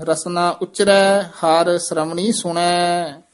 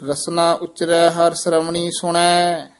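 The two takes are said the same way.

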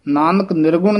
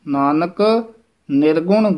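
First: Nanak runs straight into nirgun without a break. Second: Nanak is held and set apart from nirgun. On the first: The speaker calls it wrong. "Nanak ਨਿਰਗੁਣ ਨਹੀਂ ਕਹਿ ਦੇਣਾ" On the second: The speaker calls it right. "Nanak ਪਦ ਤੇ ਯਮਕ ਜ਼ਰੂਰ ਲਾ ਕੇ ਬੋਲਣਾ"

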